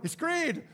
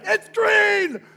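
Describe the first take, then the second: First: It is said at normal volume. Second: It is yelled loudly.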